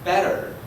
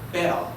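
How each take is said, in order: First: It is said in an American English accent. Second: It is said in an Australian English accent. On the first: "In the United States" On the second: "And in Australia"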